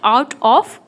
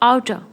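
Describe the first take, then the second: First: Both words are pronounced fully, with a clear 'of'. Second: The two words blend, ending in an 'er' sound. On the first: The speaker calls it wrong. "Not आउट ऑफ" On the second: The speaker calls it right. "It's आउटर"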